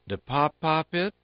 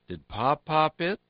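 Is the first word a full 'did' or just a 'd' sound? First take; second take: d sound; full did. First: The first word is shortened to a 'd' sound. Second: The first word is a full 'did'.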